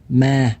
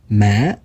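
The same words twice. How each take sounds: First: The pitch stays level at mid height. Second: The pitch dips then rises like a question. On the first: It means ghost. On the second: It means grave.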